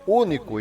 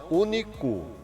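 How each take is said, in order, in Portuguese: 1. A tônica está na primeira sílaba. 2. A tônica está na última sílaba. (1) "é único" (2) "não único. Não pode ser acentuado no final"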